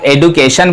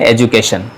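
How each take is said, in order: First: The middle consonant is a plain 'd' sound. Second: The middle consonant is a 'j' sound. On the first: The speaker calls it wrong. "इसे अगर आप एडुकेशन भी बोलते हैं तो चलेगा" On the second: The speaker calls it right. "सही उच्चारण है एजुकेशन"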